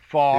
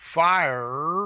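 First: The word is said with a flat, single vowel. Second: The word is said with a full two-part vowel. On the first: "my southernisms have pretty much disappeared" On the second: "now I'm going to have to consciously check"

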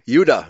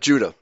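First: The word begins with a Y sound. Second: The word begins with a J sound. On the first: This is the original pronunciation. The speaker calls it right. "That's how it was pronounced" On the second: This is the later pronunciation. The speaker calls it wrong.

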